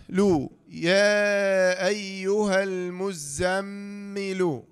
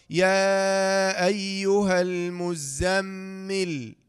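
First: Drawn-out "يا أيها المزمل" ending on an audible lu; slow recitation, voweled ending. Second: Long chanted "يا أيها المزمل" closing on vowelless l; slow recitation, stopped ending. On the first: Teacher assembling the spelled word, slow "المزمل" voweled as muzzammilu. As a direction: chant "المزمل" with held m, finishing "lu". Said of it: "لام ضمة". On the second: Teacher showing the pause form, slow "المزمل" with silent ending. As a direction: hold "يا" and the m, stop "المزمل" on bare l. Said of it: "إذا وقفنا عليها". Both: Shown as a demonstration.

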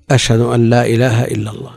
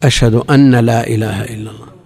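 First: أن said light with a single short nun. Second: أن said as أنّ, nun held long and doubled; demonstrating the wrong doubled nun; doubled nun mistake. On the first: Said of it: "وأن هنا مخففة". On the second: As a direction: lean on the nun to show the error. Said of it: "يعني". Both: Shown as a demonstration.

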